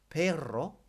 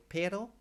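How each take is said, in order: First: "perro" with a loud, trilled double R; rolled double R. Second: "pero" with one short tapped R, voice lifted; single R. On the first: Teacher contrasting dog with but, "perro" with rolled R. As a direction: roll the R hard in "perro". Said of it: "it's got two R's in it". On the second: Teacher contrasting but with dog, "pero" with one light R. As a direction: say "pero" higher, with the R unrolled. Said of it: "Just one R". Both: Shown as a demonstration.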